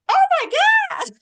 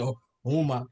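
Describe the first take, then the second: First: It is said in a high-pitched voice. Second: It is said in a deep voice.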